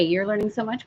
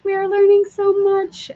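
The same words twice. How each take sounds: First: Said in the usual way. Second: Echoed back much higher and louder; high excited echo. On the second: Real, not acted. Echoing a viewer's comment in a much higher excited voice. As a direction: repeat it back, bright and high.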